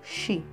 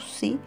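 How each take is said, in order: First: The syllable begins with a hushing sh sound. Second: The syllable begins with a hissing s sound. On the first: This is the correct pronunciation. The speaker calls it right. "a pronúncia correta é xi" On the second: This is how the Ephraimites said it. The speaker calls it wrong. "que os efraimitas pronunciavam si"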